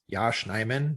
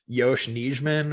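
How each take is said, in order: First: The first name is said as Yash. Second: The first name is said as Yosh. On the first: The speaker calls it right. "it's Yash Nyman" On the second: The speaker calls it wrong. "not Yosh Nijman or something like that"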